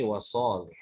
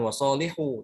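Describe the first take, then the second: First: Wasolih ending on a breathed h, no u; stopped without wawu. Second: Wasolihu with the final -hu voiced; wrong ending sounded. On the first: Teacher showing the correct stop, final vowel dropped. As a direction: draw out wasolih and close on h. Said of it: "Karena wawunya di-, dihapus". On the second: Teacher warning students off the wrong stop, final vowel sounded. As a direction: end wasolihu on an open u. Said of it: "Bukan wasolihu, tapi wasolih". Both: Shown as a demonstration.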